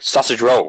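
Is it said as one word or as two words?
one word. It is run together as one word. "Is it one word"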